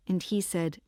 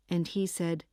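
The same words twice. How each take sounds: The two takes are said the same way.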